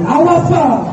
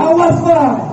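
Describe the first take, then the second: First: Cold refusal. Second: Sharper refusal. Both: Acted. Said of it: "Ditunjuknya muka suaminya".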